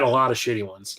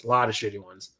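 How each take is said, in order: First: Said in the usual way. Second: Much softer, lower, trailing aside; quiet muttered repeat. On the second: Real, not acted. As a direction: drop it under your breath as an afterthought.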